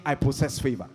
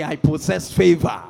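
First: Said in the usual way. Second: Loud, emphatic declaration; like you mean it. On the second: Shown as a demonstration. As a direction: proclaim it forcefully, with full conviction. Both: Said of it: "say it like you mean it".

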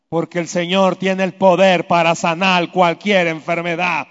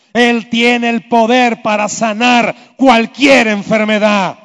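First: Said in the usual way. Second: Slow, louder with weight on cualquier; emphatic repeat. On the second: Shown as a demonstration. The preacher repeats the promise to the sick, slow and emphatic. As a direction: press hard on "cualquier", slowly. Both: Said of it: "repeated with emphasis".

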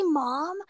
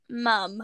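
First: "mom" with an American open vowel. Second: "Mum" with a short British uh vowel. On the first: American fans asking a Brit to say it, "mom" American-style. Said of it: "can you say mom". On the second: Brit answering American fans, "Mum" British-style. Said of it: "if they hear your British accent". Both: Retold or imitated.

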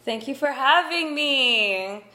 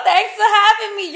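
First: Put-on higher, louder, slow valley-girl thanks. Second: Much higher, louder laughing "yo" voice; hammed-up street girl greeting, laughing; street slang voice. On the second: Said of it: "Is that, yo".

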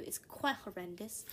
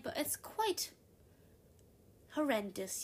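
First: Said in the usual way. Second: Quite pitched high in a put-on British-style accent; lightly done posh British accent. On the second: Shown as a demonstration. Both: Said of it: "I can talk like this all the time".

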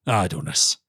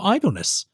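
First: Low royal echo of IDLENESS; deep, displeased monarch; affronted king. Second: High-pitched, earnest end to a warning; respectful, high-pitched warning; earnest advisor. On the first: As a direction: repeat the word back in a low, kingly voice. King echoes the word, affronted. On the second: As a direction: say IDLENESS as a high-voiced counsellor. Felix ends his warning. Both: Acted.

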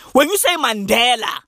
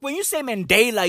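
First: Mandela with a short open "deh" in the middle; tabloid-style local "man-DEH-la"; local pronunciation. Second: Mandela with a long "day" in the middle; highbrow pronunciation. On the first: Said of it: "you write about tokoloshis and witchcraft". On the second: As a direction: say Mandela as "man-DAY-la", the international way. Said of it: "write columns for the New York Times". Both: Shown as a demonstration.

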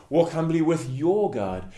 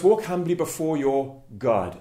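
First: "your" stressed over "God". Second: Weight falls on the final word "God"; stress on GOD. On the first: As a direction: lean on the word "your". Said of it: "emphasize the your". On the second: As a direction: set "God" apart after a short pause. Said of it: "the emphasis on God". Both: Shown as a demonstration.

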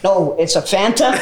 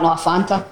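First: Slow, put-on American "Fanta"; exaggerated American pronunciation, spelled out slowly; American accent. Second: Said in the usual way. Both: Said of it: "what you said, had to go like".

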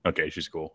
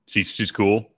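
First: Softly giving up on the point; resigned and quiet. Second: Said in the usual way. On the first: Real, not acted. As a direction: drop it to a soft, resigned mumble. Resigned after spilling the beans.

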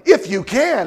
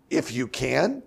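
First: Said in the usual way. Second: If you can? with a rising, doubting can; incredulous question. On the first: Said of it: "The Father's like". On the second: Shown as a demonstration. Jesus throwing the father's words back, incredulous question. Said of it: "And Jesus is like".

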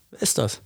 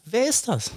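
First: Said in the usual way. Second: Wer ist das? asked much higher in disbelief; incredulous. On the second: Real, not acted. Challenging the listener, high incredulous. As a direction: throw up the question in outrage. Repeated rhetorical question.

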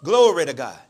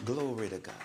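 First: Loud, lower-pitched echo of praise; repeating aloud. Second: Very soft, low-pitched praise; quiet test phrase. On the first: Woman repeats the quiet words aloud. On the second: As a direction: say it low to test their hearing. Testing deaf woman with quiet words. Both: Retold or imitated.

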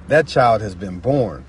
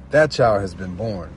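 Both takes have the same delivery.

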